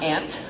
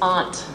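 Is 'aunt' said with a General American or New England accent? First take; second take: General American; New England. First: It is said with a General American accent. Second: It is said with a New England accent. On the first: This is not how New Englanders say it. The speaker calls it wrong. "not aunt" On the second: This is how New Englanders say it. The speaker calls it right. "you are now a New Englander. It's aunt"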